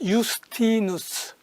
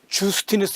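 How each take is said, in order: First: The name begins with a Y sound. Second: The name begins with a J sound. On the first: The speaker calls it right. "라틴어에서 제이는 유로 발음 나요" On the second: The speaker calls it wrong. "주스티누스 이렇게 말하면 안 돼요"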